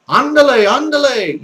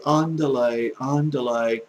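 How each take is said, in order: First: High, loud, spirited Spanish "andale"; Spanish accent. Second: Said in the usual way. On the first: Shown as a demonstration. Teacher urging learners to sound Spanish, lively Spanish accent. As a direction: call it out like a Spanish speaker. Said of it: "try to sound like the Spanish do". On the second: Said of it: "don't just say".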